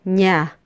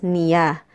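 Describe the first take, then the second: First: The word is said as one syllable. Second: The word is said as two syllables. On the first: The speaker calls it right. "Instead, we say nya" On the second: The speaker calls it wrong. "Filipinos do not pronounce this as niya"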